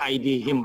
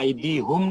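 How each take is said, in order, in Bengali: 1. শেষ অক্ষরে 'i' স্বরধ্বনি আছে। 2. শেষ অক্ষরে 'u' স্বরধ্বনি আছে। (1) "উচ্চারণের সুবিধার্থে আরবরা এইভাবে বলে" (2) "আইদি হুম না বলে"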